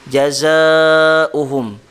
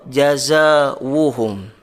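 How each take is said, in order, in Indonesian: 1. Hamzah terdengar sebelum vokal u. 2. Bunyi w terdengar sebelum vokal u. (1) "bukan dengan waw" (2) "bukan dengan waw"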